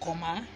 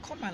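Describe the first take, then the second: First: It is said with a Nigerian English accent. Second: It is said with a British English accent. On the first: "as Nigerians would say" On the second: "if I say comma like this, I'm speaking English"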